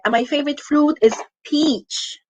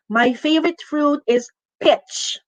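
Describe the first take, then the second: First: The vowel in the last word is long. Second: The vowel in the last word is short. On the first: The speaker calls it right. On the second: The speaker calls it wrong. "You don't say"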